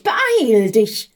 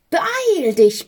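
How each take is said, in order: First: Louder but back at normal pitch, pressing; urgent repeat. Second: Much higher, louder strange voice urging; urgent call. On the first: Stress and Hectic urge the envoy again, pressing call. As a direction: repeat the urging with more weight. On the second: Stress and Hectic urge the envoy from the sack, urgent call. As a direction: push him to hurry, high and shrill. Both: A narrator's reading. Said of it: "riefen da der Stress und die Hektik".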